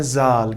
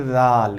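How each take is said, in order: First: जाल said with a plain z sound, the usual wrong way; wrong common way. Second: जाल said with the dhal sound, tongue tip touching the front teeth; correct Arabic letter. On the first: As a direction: say जाल as zal, the way it is usually misread. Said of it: "लेकिन ये जाल नहीं है". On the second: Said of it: "अब ये जाल आज से नहीं पढ़ना है, ये पढ़ना है". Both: Shown as a demonstration.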